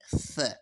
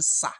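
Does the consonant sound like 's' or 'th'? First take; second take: th; s. First: The consonant is a th sound, tongue between teeth. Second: The consonant is a hissing s sound. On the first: The speaker calls it right. "I'm saying th while bringing out my tongue in between my teeth" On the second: The speaker calls it wrong. "I'm not saying sa"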